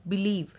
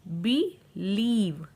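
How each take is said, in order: First: Said in the usual way. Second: बिलीव very slow, as बि, then a long लीव; broken into syllables. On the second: Shown as a demonstration. Teacher showing IE to learners, बिलीव syllable by syllable. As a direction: split बिलीव into two drawn-out parts. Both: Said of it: "हम ई sound use".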